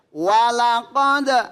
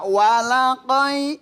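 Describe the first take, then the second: First: The final consonant is sounded with a bounce. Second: The final consonant is dropped into a vowel. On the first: The speaker calls it right. "Karena ini dibaca kolkol" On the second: The speaker calls it wrong. "nggak boleh dibaca walaqoi"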